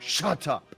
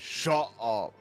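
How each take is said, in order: First: The T is pronounced strongly and clearly. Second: The T is cut off with a catch. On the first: "pronounce the T, like, very heavily" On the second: "You're supposed to sound like you choke halfway through"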